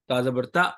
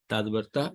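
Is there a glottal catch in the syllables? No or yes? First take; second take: yes; no. First: The syllables carry an abrupt glottal catch sound. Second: The syllables flow smoothly without any glottal catch. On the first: The speaker calls it wrong. "तो ऐसे नहीं पढ़ना।" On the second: The speaker calls it right. "तो कैसे पढ़ना है? Simple"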